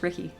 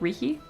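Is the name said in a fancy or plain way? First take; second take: plain; fancy. First: The name is said in a plain, ordinary way. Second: The name is said in an exotic, fancy way. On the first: The name is the ordinary one. "no, it's just Ricky" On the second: The name is assumed to be unusual. "Is it like fancy? Like Riki?"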